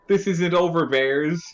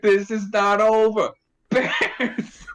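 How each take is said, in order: First: It flows straight on into "Bears". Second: "Bears" comes late, as if newly noticed.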